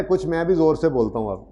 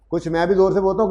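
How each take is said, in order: First: Said in the usual way. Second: Speaking louder. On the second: Shown as a demonstration. Teacher repeating louder for students with bad audio. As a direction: repeat it higher, with more push.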